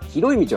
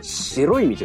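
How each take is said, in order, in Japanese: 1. 最初の単語は'hi'の音で始まります。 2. 最初の単語は'shi'の音で始まります。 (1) "広い道はですね" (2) "江戸弁ではですね"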